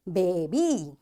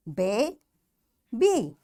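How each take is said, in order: First: Put-on "baby" in one piece, final long E drawn out; long E ending. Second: Put-on "Baby" broken as bay, pause, bee; a clear gap inside "Baby", ending on long E; split into syllables. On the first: Teacher shows pupils the long E rule, "baby" said joined up. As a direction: say "baby" joined up, lower, holding the last E. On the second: Teacher breaks the word down for pupils, syllable by syllable. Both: Shown as a demonstration. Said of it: "It will sound like long E sound".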